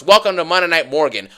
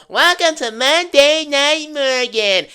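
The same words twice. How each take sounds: First: Said in the usual way. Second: High, slow, drawn-out imitation of Liv's catchphrase; mocking Liv Morgan. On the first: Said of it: "So now it's". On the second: Wrestling vlogger mocking Liv's entrance line, drawn out and high. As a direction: stretch the welcome out like a smug champion. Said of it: "does her usual".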